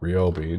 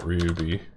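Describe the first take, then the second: First: The first syllable has an 'oh' vowel. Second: The first syllable has an 'oo' vowel. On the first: The speaker calls it right. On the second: The speaker calls it wrong. "not Ryubi. I was thinking of Ry- Ryu for a second"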